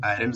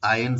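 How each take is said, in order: First: आयरन with the R sounded, eye-run; आयरन as aɪɾən with r audible; wrong pronunciation. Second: आयरन with silent R, eye-un; आयरन said aɪən, no r sound; correct pronunciation. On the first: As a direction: say आयरन pronouncing the r, the common mistake. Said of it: "लेकिन आयरन सही नहीं है". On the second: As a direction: say आयरन as ajən, drop the r completely. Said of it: "आर silent है". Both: Shown as a demonstration.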